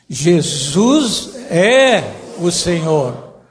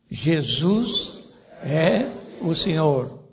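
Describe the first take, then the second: First: It is said with strong, forceful emphasis. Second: It is said plainly, without extra force.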